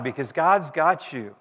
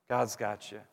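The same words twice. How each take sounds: First: Slow, raised and a bit louder, leaning on "God's got you"; emphatic. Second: Quieter and lower, "God's got you" said gently; soft assurance. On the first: Preacher assuring the congregation, emphatic and slow. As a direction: drive home "God's got you" slowly. Preacher drives home the point. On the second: Preacher comforting frightened listeners, softly. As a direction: ease off and let "God's got you" land tenderly. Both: Acted.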